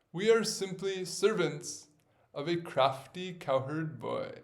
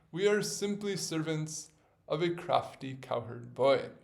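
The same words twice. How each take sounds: No difference in how they are said.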